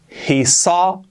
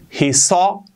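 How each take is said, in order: Both takes have the same delivery.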